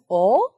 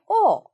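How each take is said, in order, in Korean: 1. 질문할 때처럼 음높이가 올라가요. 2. 음높이가 빠르고 급하게 떨어져요. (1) "이성" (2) "사성 빠르게"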